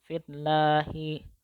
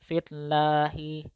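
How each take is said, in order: Both takes have the same delivery.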